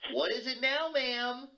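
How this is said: It sounds openly frustrated and annoyed.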